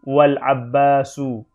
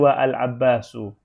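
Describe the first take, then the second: First: Wa runs straight into l with no break. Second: A separate vowel start is sounded after wa. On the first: The speaker calls it right. "ketika ditambah wa wal abbasu" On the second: The speaker calls it wrong. "bukan wa al-abbasu"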